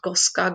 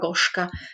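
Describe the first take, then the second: First: The middle consonant is a plain 's' sound. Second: The middle consonant is an 'sh' sound. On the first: The speaker calls it wrong. "not Goska" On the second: The speaker calls it right. "you hear this she?"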